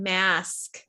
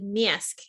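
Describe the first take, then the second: First: It is said in a general American accent. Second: It is said in a Chicago accent. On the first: "I don't teach you the way that I grew up speaking" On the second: "the way that I grew up speaking, which I would have said"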